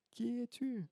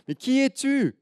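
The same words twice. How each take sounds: First: High, soft faraway repeat; the question coming back as an echo; faint distant echo. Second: Put-on high, loud child's question; loud high who are you; little girl calling. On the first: Acted. Echo answers the girl. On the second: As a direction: shout it into the mountains like a curious girl. Girl shouting to the echo.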